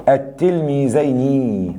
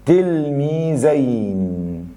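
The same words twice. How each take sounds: First: التلميذين slow, ending in a long "-ayni"; kasra on nun. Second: التلميذين very slow, stretched "-zayn" ending; dual ending demo. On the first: Teacher showing the kasra, slow التلميذين ending "-ayni". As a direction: draw out التلميذين and add "i" after the n. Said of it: "النون مكسورة". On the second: Teacher showing the dual sign, slow stretched التلميذين ending "-ayn". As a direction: draw out التلميذين with "ay" before a still n. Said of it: "فتحة وسكون قبل النون". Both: Shown as a demonstration.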